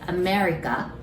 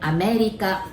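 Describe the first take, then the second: First: It is said with an English R sound. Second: It is said with Japanese sounds, no R. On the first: "we just simply say America" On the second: "we pronounce it America. Remember, we don't have R sound"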